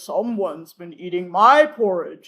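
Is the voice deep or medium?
deep. It is said in Papa Bear's deep voice.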